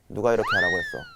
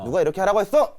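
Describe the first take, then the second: First: It is said calmly, the ending falling. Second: It is said in an angry, heated tone.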